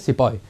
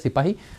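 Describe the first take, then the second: First: The word is pronounced as sepoy. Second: The word is pronounced as sipahi. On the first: This is how the British said it. "लेकिन वो बोलते थे सिपॉय" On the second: This is the original Hindi form. "जब वो हिंदी शब्द है सिपाही"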